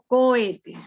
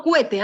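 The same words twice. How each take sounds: First: Slow cohete in three syllables, co-E-te; correct hiatus. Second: Cohete squashed into two syllables, CUE-te; wrong diphthong. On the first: Teacher giving the class the right form, cohete as co-e-te. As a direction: say cohete slowly, keeping o and e apart. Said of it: "Sino cohete". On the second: Teacher mimicking pupil's mistake, cohete slurred into cue-te. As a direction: say cohete as cuete, oe merged into a we glide. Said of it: "No cohete". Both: Shown as a demonstration.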